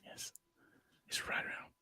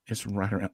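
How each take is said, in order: First: Hushed golf broadcast whisper; golf commentator whisper. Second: Said in the usual way. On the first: Pretend. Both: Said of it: "I had to use my golf voice".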